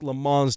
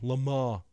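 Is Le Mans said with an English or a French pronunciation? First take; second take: English; French. First: Le Mans is pronounced the anglicized way. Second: Le Mans is pronounced the French way. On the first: The speaker calls it wrong. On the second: The speaker calls it right.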